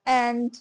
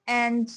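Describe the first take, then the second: The two takes are said the same way.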